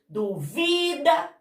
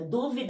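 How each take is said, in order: First: The stress is on the second syllable. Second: The stress is on the first syllable. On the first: It is the verb meaning someone doubts. "Duvida é paroxítona" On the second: It is the noun meaning a doubt. "Dúvida é proparoxítona"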